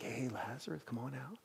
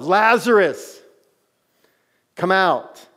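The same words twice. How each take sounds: First: Soft offhand call, barely voiced; casual quiet call. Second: Loud, high commanding call; yelled command. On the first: Shown as a demonstration. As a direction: toss it off quietly, not a summons. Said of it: "It wasn't like". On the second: Retold or imitated. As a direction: shout the name like an order into the tomb. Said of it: "Like, he yelled".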